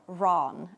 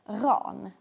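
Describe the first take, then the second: First: The name has an English pronunciation. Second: The name has a non-English pronunciation.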